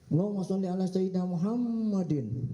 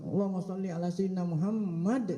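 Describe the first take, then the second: First: The last word ends with an added -in sound. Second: The last word stops on a bare consonant. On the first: The speaker calls it wrong. "Ih, padahal guru tuh kiai tuh" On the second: The speaker calls it right.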